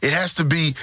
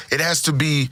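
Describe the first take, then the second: No difference in how they are said.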